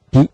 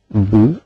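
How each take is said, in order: First: The b is followed by a front i vowel. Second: The b is followed by a rounded u vowel. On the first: The speaker calls it right. "tapi bi, nah, karena mabni kasra" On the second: The speaker calls it wrong. "tidak bisa B dibaca ... bu"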